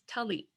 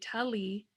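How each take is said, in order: First: The final vowel ends abruptly in a glottal stop. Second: The final vowel is drawn out with no stop. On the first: The speaker calls it right. "because there's a glottal stop, it's tully" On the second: The speaker calls it wrong. "If it wasn't there, it would be tully"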